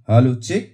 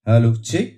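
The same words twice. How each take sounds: The two takes are said the same way.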